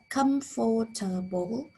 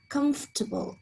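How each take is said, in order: First: The word is said with four full syllables. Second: The word is shortened to three syllables. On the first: "You probably said comfortable" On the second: "A native could probably reduce this to comfortable, again removing one of these syllables"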